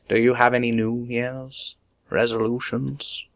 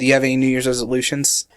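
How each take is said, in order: First: The words are said clearly and separately. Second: The words are slurred and run together.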